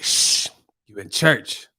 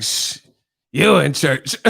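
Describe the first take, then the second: First: Slow hushing old church lady, lightly voiced; raspy old lady. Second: Lightly voiced mockery of the old lady; mocking echo. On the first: Old lady shushing the speaker in church, lightly raspy. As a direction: shush slowly, a hint of rasp. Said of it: "that lady with that raspy voice". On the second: The speaker mimicking the church lady, mild mockery. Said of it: "he would mock the people's voices".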